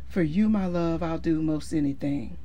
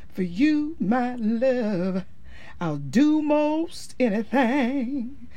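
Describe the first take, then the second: First: The line is delivered flatly, without real feeling. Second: The line is delivered with real emotional feeling. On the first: The singer does not really mean the words. The speaker calls it wrong. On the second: The singer truly means the words. The speaker calls it right.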